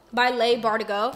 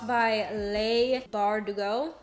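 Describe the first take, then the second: First: Said in the usual way. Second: Slow, halting, rising at the end; drawn-out, tentative reading of a name; careful sounding-out. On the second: Real, not acted. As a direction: feel your way through the author's name slowly. Sounds out author's name, then repeats.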